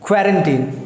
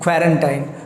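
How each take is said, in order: First: The last syllable sounds like 'teen'. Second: The last syllable sounds like 'tine'. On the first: The speaker calls it right. "इसका जो सही sound है it's called क्वारंटीन, क्वारंटीन ना कि टाइन" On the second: The speaker calls it wrong. "लोग इसे मिस pronounce करके बोलते हैं क्वारंटाइन, जो कि गलत है"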